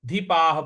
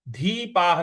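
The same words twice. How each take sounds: First: The first vowel is short. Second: The first vowel is long. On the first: The speaker calls it right. "धीपाह बोलना है" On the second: The speaker calls it wrong. "धीपाह नहीं बोलना है"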